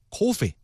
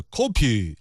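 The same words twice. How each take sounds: First: Said in the usual way. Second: Coffee said in a mock Korean accent with a P sound, as kopi, falling; mock Korean English, coffee as kopi. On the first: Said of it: "比方说咖啡，coffee". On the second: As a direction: imitate a Korean speaker turning the f of coffee into p. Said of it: "韩国人一说就是coffee".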